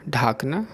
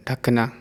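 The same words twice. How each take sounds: First: ढाकना with a long ढा; the mistaken ढाकना; wrong form. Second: ढकना with a short ढ; the proper ढकना; correct form. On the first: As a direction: say ढाकना, first vowel stretched. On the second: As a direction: say ढकना, first vowel short. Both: Shown as a demonstration. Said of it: "अशुद्ध और शुद्ध रूप".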